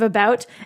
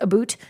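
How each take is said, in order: First: The vowel sounds like 'a bout', American style. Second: The vowel sounds like 'a boot', Canadian style. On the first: "instead of about" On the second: "everyone says about"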